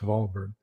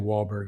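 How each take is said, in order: First: The name starts with a V sound. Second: The name starts with an English W sound. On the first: This is how it is said in German. "in German it's" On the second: This is how locals in Texas say it. "In Texas, we say"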